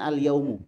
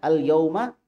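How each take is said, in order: First: The word ends in an 'u' vowel. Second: The word ends in an 'a' vowel. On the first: It is an ordinary noun meaning the day. "Harusnya kan al-yaumu" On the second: It is an adverb meaning on this day. "Tapi di situ baca al-yauma akmaltu"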